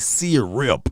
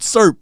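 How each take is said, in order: First: It is said the longer, fuller way. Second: It is said the short Southern way. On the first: This takes too long to say. The speaker calls it wrong. "Who have time to say syrup?" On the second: This is how people in the South say it. The speaker calls it right. "we say syrup around here"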